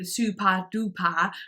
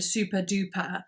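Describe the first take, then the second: First: It is said with a Swedish accent. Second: It is said with a plain English accent. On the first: "the Swedish way" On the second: "rather than"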